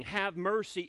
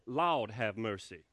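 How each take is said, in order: First: Said in the usual way. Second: Low, slow Southern "Lord have mercy"; drawn-out Southern "Lord have mercy", lower and slower; Southern idiom. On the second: Shown as a demonstration. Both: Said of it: "is actually short for".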